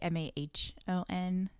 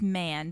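First: The name sounds like 'Mahon', with two syllables. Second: The name sounds like the word 'man'. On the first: The speaker calls it wrong. "everyone said Mahon" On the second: The speaker calls it right. "but it's pronounced because man"

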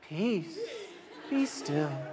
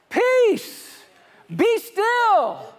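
First: It is said softly and timidly. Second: It is shouted loudly and boldly. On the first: The speaker lacks authority. The speaker calls it wrong. "that's not how he said it" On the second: The speaker commands with authority. The speaker calls it right. "to shout"

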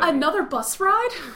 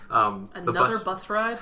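First: The question sounds cheerful and joyful. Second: The question sounds flat and unenthusiastic.

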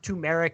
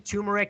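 First: The word is said in its fuller, effortful form. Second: The word is said in an easier, reduced form. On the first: This is the standard way that takes more effort. The speaker calls it right. "It's just more work to say it correctly" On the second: The speaker takes the less effortful way. The speaker calls it wrong. "that's why I say turmeric"

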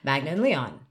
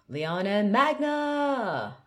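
First: The voice falls at the end. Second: The voice rises high at the end.

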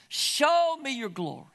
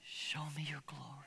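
First: It is cried out loudly. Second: It is said quietly and calmly.

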